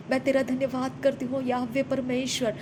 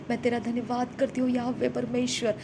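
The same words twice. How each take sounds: The two takes are said the same way.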